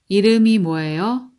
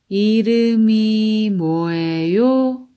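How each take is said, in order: First: It is said fast. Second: It is said slowly.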